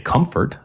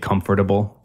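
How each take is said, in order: First: The word is shortened, with syllables run together. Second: Every syllable of the word is carefully pronounced. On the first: This is how the speaker normally talks. "But I would say" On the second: The speaker is trying to sound especially proper. "If you were trying to speak especially proper"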